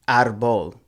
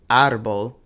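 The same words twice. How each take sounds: First: The stress is on the last syllable. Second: The stress is on the first syllable. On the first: The speaker calls it wrong. "we put the stress on that last syllable" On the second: The speaker calls it right. "these are pronounced"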